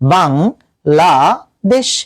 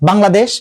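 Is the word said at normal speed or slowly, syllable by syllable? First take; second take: slowly; normal speed. First: The word is said slowly, syllable by syllable. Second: The word is said at normal speed, unbroken.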